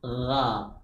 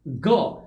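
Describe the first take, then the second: First: The throat sound is soft and flowing. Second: The sound is a hard stop like g. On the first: The speaker calls it right. "dibaca dengan suara yang lembut" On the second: The speaker calls it wrong. "ada juga yang menyamakannya dengan bunyi go"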